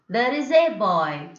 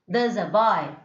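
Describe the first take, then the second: First: The article 'a' gets a full, strong vowel. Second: The article 'a' gets a weak, reduced vowel. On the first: The speaker calls it wrong. "no need of telling like that" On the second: The speaker calls it right. "It's enough that you use like"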